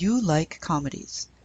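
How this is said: It is said with statement intonation. It asserts that the listener likes comedies. "So a statement is"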